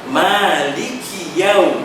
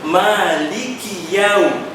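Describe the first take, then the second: No difference in how they are said.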